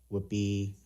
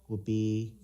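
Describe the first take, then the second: Both takes have the same delivery.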